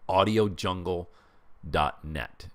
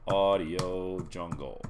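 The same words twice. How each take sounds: First: Slow and clear. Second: Slow, savoring each word; drawn out slowly. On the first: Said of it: "It's called audio jungle dot net". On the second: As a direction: stretch the name out slowly. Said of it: "You can actually see it". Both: Shown as a demonstration.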